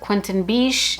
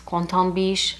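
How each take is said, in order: First: The name is said with English sounds. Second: The name is said with French sounds. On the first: The speaker calls it wrong. "that is the English way to say his name" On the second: The speaker calls it right. "someone recently correct me and say that it's"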